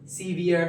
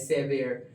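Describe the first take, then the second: First: The first vowel sounds like a long ee. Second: The first vowel sounds like a short eh. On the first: The speaker calls it wrong. "सीवियर हम इसे पढ़ते हैं" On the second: The speaker calls it right. "असल में ये लफ्ज़ सेवियर होता है"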